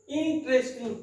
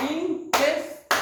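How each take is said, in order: First: Said in the usual way. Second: interest slow and higher, in separate beats इन-ट-रेस्ट; clapped syllables. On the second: Shown as a demonstration. Teacher clapping out syllables, interest broken into slow beats. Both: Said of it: "clapping method से".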